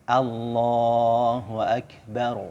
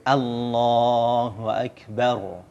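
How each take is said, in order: Both takes have the same delivery.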